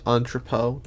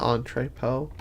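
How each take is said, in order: First: "entrepot" with an unstressed middle "truh": ON-truh-poh; corrected pronunciation. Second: "entrepot" with a full "tray" in the middle: ON-tray-poh; mispronunciation demo. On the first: Gamer checking a word aloud, "entrepot" as ON-truh-poh. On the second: Gamer rejecting their slip, "entrepot" as ON-tray-poh. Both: Shown as a demonstration. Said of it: "not entrepot".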